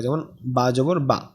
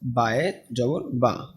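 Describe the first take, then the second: First: বা জবর বা said slowly, short clipped ba with a plain a; slow careful demo of a short বা; teacher sounding out a short vowel. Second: বায়ে জবর বা said slowly and quietly, the ba kept short; quiet, careful read of the short বা; teacher repeats the short form before the long one; slow demo. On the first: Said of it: "আমি বলি জবর এরকম". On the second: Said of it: "জবরটাকে এমনি টান দেই লম্বা". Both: Shown as a demonstration.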